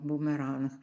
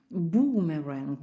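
First: Said in the usual way. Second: "Бумеранг" slowly, with the "у" stretched long; drawn-out long u. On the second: Shown as a demonstration. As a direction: round the lips and hold the "у" in "Бумеранг". (повільно, з протяжним «у» в «Бумеранг») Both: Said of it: "складаючи губи в трубочку і вимовляючи протяжно".

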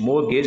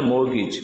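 First: Mortgage ending in 'gayj'; wrong pronunciation. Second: Mortgage ending in a short 'gich'; correct pronunciation. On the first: Teacher shows the mistake, mortgage ending 'gej'. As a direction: say mortgage as mor-GEJ. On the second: Teacher corrects learners, mortgage ending 'gich'. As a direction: say mortgage as MOR-gich, t silent. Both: Shown as a demonstration. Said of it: "mortgage नहीं होता है".

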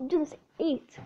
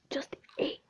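First: Said in the usual way. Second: Unvoiced whispered brag; whispering. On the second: Real, not acted. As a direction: whisper it smugly.

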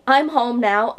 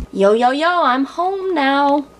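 First: Said in the usual way. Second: Higher, drawn-out "yo" greeting; hammed-up singsong arrival, dragging the words out; goofy hype greeting. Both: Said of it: "don't let me do that again".

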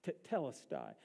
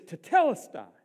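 First: Said in the usual way. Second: Loud proclaiming shout after a breath; forceful, declamatory cry; cried out from the cross. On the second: Retold or imitated. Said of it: "he takes his breath".

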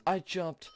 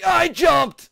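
First: Softer, defeated repeat; deflated protest. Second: High, loud protest; indignant shout. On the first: Player giving up on a failed jump, deflated protest. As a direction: say it softly, giving up. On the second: Player protesting a failed jump, indignant shout. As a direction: yell it in disbelief. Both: Real, not acted.

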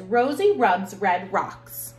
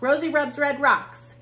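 First: Slow careful twister. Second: "Rosie rubs red rocks" rattled off quickly, higher and louder; fast tongue twister. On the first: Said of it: "Tongue twister says". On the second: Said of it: "I did it fast". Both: Shown as a demonstration.

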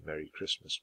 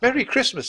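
First: Said in the usual way. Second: Put-on very high, chirpy girl's greeting; high-pitched little girl voice; Annie's voice. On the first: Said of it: "did not say Merry Christmas back". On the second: A narrator's reading. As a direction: sing out the greeting high and loud. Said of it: "said Annie".

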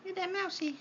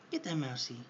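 First: Very high squeaky cheer on mousey; squeaky pet cheer. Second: Said in the usual way. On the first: Real, not acted. Owner cheering Helix to attack the toy mouse, very high. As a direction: cheer the bird on in a tiny high voice.

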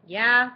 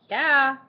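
First: A blunt, loud, bored "Yeah?"; curt phone answer. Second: Loud, higher teasing echo of "Yeah?"; mocking imitation. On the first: Acted. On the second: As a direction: parrot his rude "Yeah?" back, higher. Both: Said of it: "Is that how you answer the phone?".

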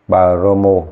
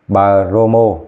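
The two takes are said the same way.

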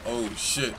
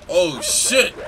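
First: Said in the usual way. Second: Sudden loud alarmed shout; startled yell. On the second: Real, not acted. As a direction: yelp it out in surprise. Startled by dogs in game.

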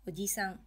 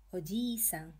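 First: "ji" in oji-san kept short; single-beat "i" in oji-san; short vowel. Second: "ji" in oji-san held long, as "ojii-san"; long vowel. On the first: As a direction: say oji-san compactly, with no stretched i. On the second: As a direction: stretch the i of oji-san over two beats. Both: Shown as a demonstration. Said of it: "which sounds similar to".

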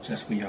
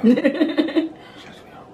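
First: Soft and airy. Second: Laughing. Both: Real, not acted.

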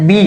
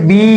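First: বি with a short, quick ee sound; short i vowel. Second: বি with the ee held long; long ee vowel. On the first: Teacher shows learners the sound in "be", short ee in বি. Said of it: "মানে ই উচ্চারণ হচ্ছে হর্ষই". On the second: Teacher shows learners the sound in "bee", long drawn-out ee in বি. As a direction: stretch out the vowel in বি. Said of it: "দীর্ঘশ্বাসের". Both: Shown as a demonstration.

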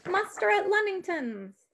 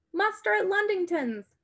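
First: High urgent rallying cry; rally the neighbors, pitched up; cried out. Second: Higher urgent call; cried out. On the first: Sybil rallying villagers with lanterns, crying out. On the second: Sybil rousing a farmer at night, crying out. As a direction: sound the alarm, pitched up. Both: A narrator's reading. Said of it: "Sybil cried".

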